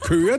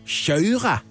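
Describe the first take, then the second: First: The k is a plain Danish hard k. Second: The k is softened, Swedish-style, like kj. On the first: "De siger ikke køre" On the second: "de siger jo kjøre"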